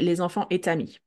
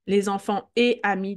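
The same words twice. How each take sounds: First: A t sound links et into amis. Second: Et and amis are said without a linking sound. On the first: The speaker calls it wrong. "we don't say" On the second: The speaker calls it right. "After the et"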